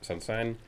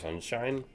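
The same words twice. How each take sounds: First: The sh sound is distorted, not a clear sh. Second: The sh sound is pronounced as a clear sh. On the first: The speaker calls it wrong. "I wasn't pronouncing S H's properly" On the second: The speaker calls it right. "instead of sunshine"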